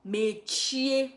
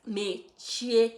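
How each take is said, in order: Both takes have the same delivery.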